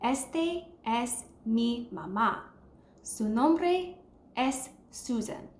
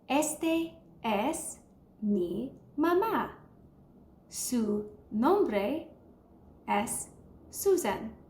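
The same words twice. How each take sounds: First: It is said at normal speed. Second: It is said slowly.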